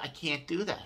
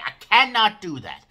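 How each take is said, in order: First: It sounds calm and diplomatic. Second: It sounds upset and forceful.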